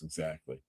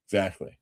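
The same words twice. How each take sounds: First: Soft aside. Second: Said in the usual way. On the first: Real, not acted.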